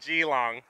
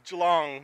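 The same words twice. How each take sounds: First: It is said the way an outsider might. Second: It is said the local Australian way. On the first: The speaker calls it wrong. "not Geelong" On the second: The speaker calls it right. "I had to learn it was Geelong"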